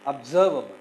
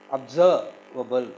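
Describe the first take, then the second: First: "observable" joined up, loud on SERV; "observable" as one word, second syllable punched; stress on second syllable. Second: Slow "observable", pausing after SERV; "observable" drawn out in pieces; syllable by syllable. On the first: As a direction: hit SERV in "observable", then drop away. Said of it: "The second syllable is stressed". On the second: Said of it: "how we have to syllabify". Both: Shown as a demonstration.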